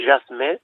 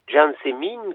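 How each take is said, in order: First: "Jasmin" said the French way, zhas-MAN, nasal end; French name. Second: "Jean Sémine" said the Occitan way, as two words; Occitan name. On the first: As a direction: give "Jasmin" its French form, one word. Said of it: "en français se dit". (« Jasmin » prononcé à la française) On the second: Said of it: "qui en français se dit Jasmin". (« Jean Sémine » prononcé à l'occitane) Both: Shown as a demonstration.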